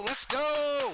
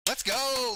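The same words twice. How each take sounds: First: Stretched rally chant. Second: Excited cheer. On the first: Streamer chants to the chat, stretched rally cry. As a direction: chant it to the crowd. Cheering the Vikings drive. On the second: Streamer rallies the chat, excited cheer. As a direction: pump up the viewers. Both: Real, not acted.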